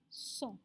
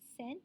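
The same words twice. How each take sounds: First: It sounds like 'song', with no final t. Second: It sounds like the English word 'cent'. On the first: The speaker calls it right. "But in French, the pronunciation adalah cent. Macam S O N G lah" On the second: The speaker calls it wrong. "Sebutan dia bukan cent. Memang kita rasa tendency untuk sebut cent, right? Macam in English"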